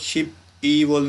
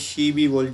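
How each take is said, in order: First: The p closes the first syllable, kept apart. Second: The p runs into the next syllable, linked. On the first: The speaker calls it wrong. "इसको शिप ई वोल नहीं पढ़ेंगे" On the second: The speaker calls it right. "इसको पढ़ेंगे शी वोल"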